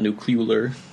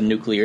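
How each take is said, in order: First: The word ends in a 'cular' sound. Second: The word ends in a 'clear' sound. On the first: The speaker calls it wrong. "not nuclear" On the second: The speaker calls it right. "I said nuclear"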